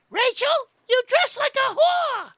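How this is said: It is said in the mother's voice.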